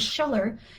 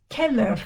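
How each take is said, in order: First: The name begins with a sh sound. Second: The name begins with a k sound. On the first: The speaker calls it wrong. "that's not pronounced ... Scheller" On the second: The speaker calls it right. "C H in Italian is K like K"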